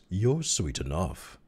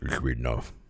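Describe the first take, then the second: First: It is said in a plain, natural voice. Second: It is said in a thick, mushed accent. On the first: The speaker calls it wrong. "Oh, I'm sorry. It's supposed to be that" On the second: The speaker calls it right. "I'll just mush it"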